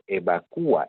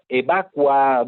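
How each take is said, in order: First: The stress falls on the syllable 'cu'. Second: The stress falls on the syllable 'va'. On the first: This form is the usual one in Peru. The speaker calls it right. "No, es evacúa" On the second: This form is common in other countries, not Peru. The speaker calls it wrong. "raro que alguien diga evacua"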